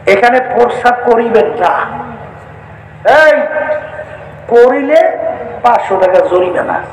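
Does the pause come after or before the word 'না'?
after. The pause comes right after 'না'.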